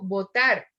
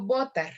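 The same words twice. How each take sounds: First: "votar" with the final "tar" stressed; stress on last syllable. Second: "votar" with the stress moved onto the first syllable "vo"; wrong stress. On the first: Teacher giving an example of última stress, "votar" said vo-TAR. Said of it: "cuando lleva un acento en la última". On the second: Teacher showing what she doesn't say, "votar" mis-stressed on VO. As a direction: say "votar" as VO-tar, weak ending. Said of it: "no digo votar". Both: Shown as a demonstration.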